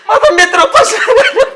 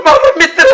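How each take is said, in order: First: Higher, rising wail on माझा; drunken wailing. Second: Weepy, choked start of a lament; sniffling as he begins to mourn his friend; drunken crying. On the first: Drunk man wails to his friend about going hungry, higher and sobbing. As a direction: let the crying break out on माझा मित्र. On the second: Drunk man tells his friend of his sacrifice, crying. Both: Acted. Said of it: "तू गप रडू नको".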